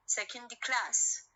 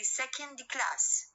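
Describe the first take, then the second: First: Second class, slow, with class carrying the stress. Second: Said in the usual way. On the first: Shown as a demonstration. Teacher shows students where the stress falls in second class. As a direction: lean on class as the final element. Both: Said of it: "إذن على class الستريس".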